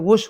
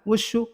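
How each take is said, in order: First: The word ends without the final u vowel. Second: The word ends in a final u vowel. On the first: "अगर वाव हटा दोगे, वो शॉर्टकट में वुश हो जाएगा" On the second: "वुशु होता है ना"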